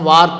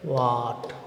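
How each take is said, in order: First: The R sound is clearly pronounced. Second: The R sound is dropped completely. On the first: The speaker sounds like a non-native. The speaker calls it wrong. "మనమైతే స్పెల్ చేస్తున్నాం వార్ట్ అని, కాకపోతే non non native Germans అని ఐడెంటిఫై చేయడం జరుగుతుంది" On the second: The speaker sounds like a native. The speaker calls it right. "ఆర్ silent అవ్వాలమ్మా"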